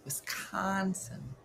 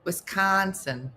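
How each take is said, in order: First: Very soft, slow "Wisconsin"; hushed drawn-out state name. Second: Slow WisCONsin, middle syllable stretched; drawn-out state name. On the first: Testing the local accent to themselves, hushed drawn-out Wisconsin. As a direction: nearly whisper "Wisconsin", stretching it out. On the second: Trying out how locals say it, drawn-out Wisconsin. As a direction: say "Wisconsin" slowly, dwelling on the middle. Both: Shown as a demonstration.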